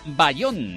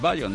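First: The stress is on the second syllable. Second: The stress is on the first syllable. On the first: "yo he puesto el acento en la O" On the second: "Igual es"

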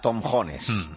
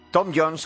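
First: The name is said with older Spanish-style pronunciation. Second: The name is said close to English pronunciation. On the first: This is how the name used to be said. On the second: This is how the name is said today.

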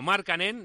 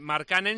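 First: The stress is on the first syllable. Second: The stress is not on the first syllable. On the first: The speaker calls it right. "sino ... todas las palabras, todas, son esdrújulas" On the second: The speaker calls it wrong. "No se dice"

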